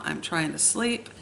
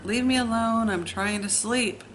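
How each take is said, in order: First: Said in the usual way. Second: Mild mock yell, higher on the first words; retold yell. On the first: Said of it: "I remember sitting there thinking". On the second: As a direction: snap back at your sister to leave you alone. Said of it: "I would scream to her".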